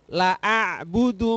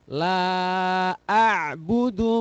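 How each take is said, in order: First: The vowel in la is short. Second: The vowel in la is long. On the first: The speaker calls it wrong. "Tidak boleh" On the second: The speaker calls it right. "Maka harus dibaca panjang"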